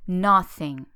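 It is said with a Portuguese accent.

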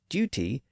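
It is said with a British pronunciation. "In Britain, you're likely to hear the word D-U-T-Y pronounced as duty"

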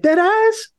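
It sounds amused and surprised.

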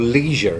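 The word is said with an American pronunciation.

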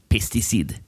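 It is said with a French pronunciation.

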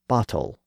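The middle T is a clear T sound. "you get bottle"

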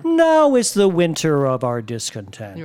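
The pitch moves from high down to low.

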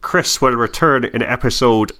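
It is said in a put-on Irish accent.

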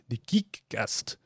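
It is said in a put-on European accent.

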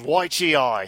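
It is said in a put-on Australian accent.

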